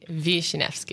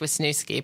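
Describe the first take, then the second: First: The name is said with Polish pronunciation. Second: The name is said with local Pittsburgh pronunciation. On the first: This is the original form of the name. "it's really Wisniewski because it's Polish" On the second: This is how the region says the name. "the Pittsburgh pronunciation is Wisniewski"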